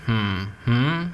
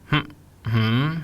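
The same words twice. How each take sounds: No difference in how they are said.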